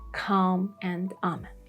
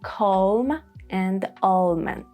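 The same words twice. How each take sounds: First: The words are said with the common pronunciation. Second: The words are said with an American pronunciation. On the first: "mostly you would hear" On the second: "Americans may prefer"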